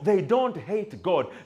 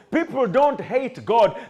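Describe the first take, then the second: First: It is said at normal, quieter volume. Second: It is said more loudly.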